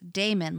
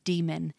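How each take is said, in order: First: The word sounds like the name Damon. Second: The word sounds like the word demon. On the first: The speaker calls it wrong. "I read it as Damon, D-A-E-M-O-N, as Damon, like the A-E sound" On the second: The speaker calls it right. "it is a conscious effort to say demon, which is how the pronunciation is"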